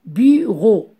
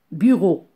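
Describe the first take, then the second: First: Bureau stretched into bu, ro; syllable by syllable. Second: Said in the usual way. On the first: Shown as a demonstration. Teacher counting syllables, Bureau split into bu and ro. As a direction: split Bureau into two beats. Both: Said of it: "La syllabe bu et la syllabe ro".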